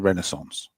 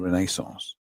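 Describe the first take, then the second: First: It is said with an American pronunciation. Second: It is said with a British pronunciation. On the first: "to the Americans it was the Renaissance" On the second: "Why do you say it like that?"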